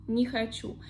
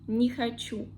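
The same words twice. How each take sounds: The two takes are said the same way.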